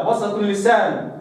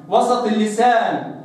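Both takes have the same delivery.

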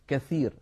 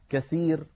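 First: The middle consonant is a th sound. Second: The middle consonant is an s sound. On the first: The speaker calls it right. "بدل" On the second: The speaker calls it wrong. "ويقولون"

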